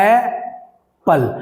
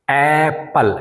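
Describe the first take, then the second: First: Apple stretched very slowly, ए held apart from पल; syllables pulled apart. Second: Said in the usual way. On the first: Shown as a demonstration. Teacher separating the syllables of apple for students. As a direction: drag out Apple, a clean break after ए. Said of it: "first मेरा stress ये हुआ ए". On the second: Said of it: "अब देखिए".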